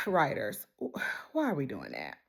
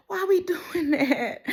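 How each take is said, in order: First: Weary plea. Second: Laughing complaint. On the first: Weary sigh at the writers. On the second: Complaining about the labor plot. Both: Real, not acted.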